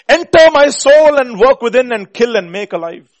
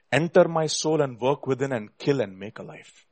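First: Loud, high preaching plea; impassioned cry. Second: Said in the usual way. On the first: Real, not acted. Preacher pleading the hymn line to God, impassioned cry. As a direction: cry it out to heaven at full voice.

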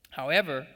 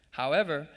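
No difference in how they are said.

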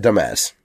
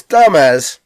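First: "dumbass" said as duh-MEZ; stress on second syllable. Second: "dumbass" said as DAH-mez, punched high; stress on first syllable. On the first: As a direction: land "dumbass" on its last syllable. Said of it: "wrong emphasis on the wrong syllable". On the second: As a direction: hit the first syllable of "dumbass" hard and long. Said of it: "but now it is". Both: Shown as a demonstration.

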